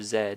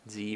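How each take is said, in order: First: The letter is said the non-American way, 'zed'. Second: The letter is said the American way, 'zee'.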